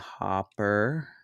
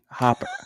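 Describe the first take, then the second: First: The R sound is pronounced, said slowly. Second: The R sound is dropped, said quickly. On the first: The speaker calls it right. "let's slow that down" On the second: The speaker calls it wrong. "I don't say my R's right sometimes"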